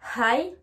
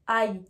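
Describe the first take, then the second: First: The h at the start is breathed out. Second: The h at the start is silent. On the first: The speaker calls it right. "je prends ma respiration pour pouvoir prononcer le H" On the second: The speaker calls it wrong. "je ne vais pas dire"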